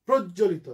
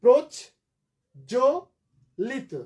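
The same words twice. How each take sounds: First: Said in the usual way. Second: প্রজ, pause, জো, pause, লিত; each part of প্রজ, জো, লিত on its own; three separate syllables. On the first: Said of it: "তাহলে syllable ভাঙো". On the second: Shown as a demonstration. Teacher counting out three syllables, syllable by syllable. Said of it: "তিনটা syllable আমরা".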